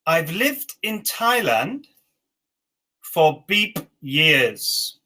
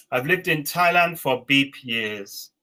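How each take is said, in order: First: Slow, words spaced out; slow dictation. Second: Said in the usual way. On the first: Shown as a demonstration. Teacher dictating the last sentence slowly. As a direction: stretch it out for the learners. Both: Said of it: "And the last one".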